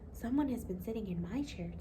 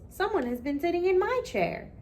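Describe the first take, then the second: First: It is said in a quiet, gentle voice. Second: It is said in a big, loud, booming voice. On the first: "in a quiet, gentle voice" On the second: "roared with a big booming voice"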